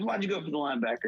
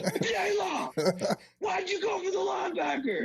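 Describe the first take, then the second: First: Quick, higher-pitched questioning; retold coach's challenge. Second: Strained, very high-pitched scream at normal volume; mock screaming coach. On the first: Coach questions player during film session, quick pressing challenge. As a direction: press the player without shouting. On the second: Coach rewinds film and confronts player, mock high screaming. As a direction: scream the question, hammed up. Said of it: "they start screaming".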